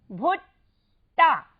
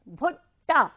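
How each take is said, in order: First: भुट्टा slow and loud, split before टा; short भु, pause, then टा in भुट्टा; syllable by syllable. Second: भुट्टा joined up with a short भु; whole-word pronunciation. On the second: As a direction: say भुट्टा as one crisp word. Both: Shown as a demonstration. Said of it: "मात्रा तो बन गया भू".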